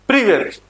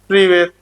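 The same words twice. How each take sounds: First: It is said with lively energy and enthusiasm. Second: It is said flatly, without much energy. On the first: The speaker calls it right. "थोड़ा सा जोश लाके" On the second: The speaker calls it wrong. "ऐसे नहीं बोलेंगे"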